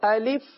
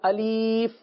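First: The vowels are short and crisp. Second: The vowels are altered and drawn out. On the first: The speaker calls it right. "ہمیں درست ادا کرنا ہے تو ہم کس طرح پڑھیں گے؟" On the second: The speaker calls it wrong. "اس طرح بھی پڑھ دیا جاتا ہے"

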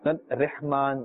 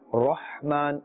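First: The 'ra' sound is thin and light. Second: The 'ra' sound is thick and full-mouthed. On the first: The speaker calls it wrong. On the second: The speaker calls it right. "Rah must be pronounced with the full mouth"

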